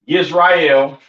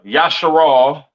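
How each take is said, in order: First: The name begins 'yis' and ends 'rael'. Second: The name ends in a short 'al' sound. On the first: "Not Yisrael" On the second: "not uh uh Yasharal"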